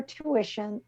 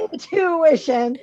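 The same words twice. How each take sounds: First: Said in the usual way. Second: "Intuition" said slowly and pointedly, with the full first syllable "In"; correcting herself. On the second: Shown as a demonstration. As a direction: stretch out "Intuition" to fix the slip.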